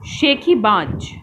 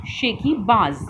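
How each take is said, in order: First: शेखीबाज with plain ज as j; शेखीबाज said slowly, ज as in jar; without nukta. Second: शेखीबाज with ज़ as z; शेखीबाज ending in a clear z sound; with nukta. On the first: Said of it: "इन शब्दों को बोलकर पढ़िए". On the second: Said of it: "अंतर है आवाज़ में". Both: Shown as a demonstration.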